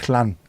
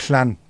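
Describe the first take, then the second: Both takes have the same delivery.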